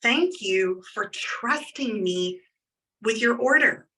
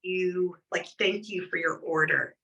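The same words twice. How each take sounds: First: Slow sincere thank-you, weight on thank; mean every word, slowly; genuine heartfelt thanks. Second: Quick offhand thank-you, lower; rushed perfunctory thanks. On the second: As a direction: toss the thanks off without meaning it. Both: Shown as a demonstration. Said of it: "Like, genuinely".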